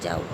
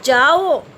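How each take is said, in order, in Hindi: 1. यह शांत, सामान्य लहजे में कहा गया है। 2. यह तीखे, गुस्से वाले लहजे में कहा गया है। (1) "सामान्य ट्यून में" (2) "टीचर का जो है गुस्सा जो है यहाँ दिखाई दे रहा है"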